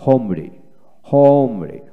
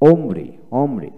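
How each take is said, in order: First: হোমরি with an audible h first; হোমরি starting on a breathed h; American h pronunciation. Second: ওমরি slowly, with no h; ওমরি opening straight on the vowel; British pronunciation. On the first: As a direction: sound the h in হোমরি. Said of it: "আমেরিকানে হ". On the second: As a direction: drop the h in ওমরি. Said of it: "British উচ্চারণে". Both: Shown as a demonstration.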